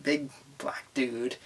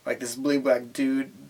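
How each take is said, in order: First: A conspiratorial whispered aside. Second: Said in the usual way. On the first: Shown as a demonstration. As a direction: drop to a hush on the repeat. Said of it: "repeat of previous". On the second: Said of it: "repeated as a whisper".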